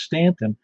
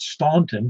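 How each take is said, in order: First: The first syllable sounds like 'stan'. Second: The first syllable sounds like 'stawn'. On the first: This is how locals say it. The speaker calls it right. "but it's Stanton" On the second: This is how outsiders say it. The speaker calls it wrong. "everybody in the world would call it Staunton"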